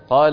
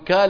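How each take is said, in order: First: The word begins with a deep q sound. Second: The word begins with a k sound. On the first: "بدل ما يقول إيش؟" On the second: "وبعض العرب يقلب القاف كاف"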